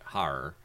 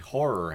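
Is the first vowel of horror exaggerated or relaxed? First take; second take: relaxed; exaggerated. First: The first vowel is relaxed, in a New England accent. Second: The first O vowel is drawn out and exaggerated. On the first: "I would normally pronounce it horror" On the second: "which I'm accentuating the O"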